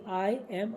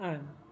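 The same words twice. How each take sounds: First: Two words are said separately and fully. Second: The words are joined into one short syllable. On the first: The speaker calls it wrong. "अलग अलग नहीं बोलेंगे" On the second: The speaker calls it right. "हम बोलेंगे"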